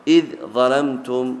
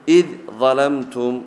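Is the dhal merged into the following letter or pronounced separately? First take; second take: separate; separate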